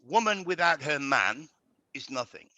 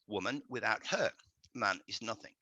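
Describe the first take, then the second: First: There is a pause after the word man. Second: There is a pause after the word her.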